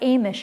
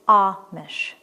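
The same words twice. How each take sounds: First: The first vowel has the rejected sound. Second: The first vowel has the accepted sound. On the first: The speaker calls it wrong. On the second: The speaker calls it right.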